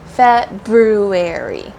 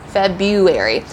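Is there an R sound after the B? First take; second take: yes; no. First: It is said with an R after the B. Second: It is said without an R after the B. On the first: The speaker calls it right. "there's actually an R before the U. So it's pronounced February" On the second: The speaker calls it wrong. "lots of native English speakers say February"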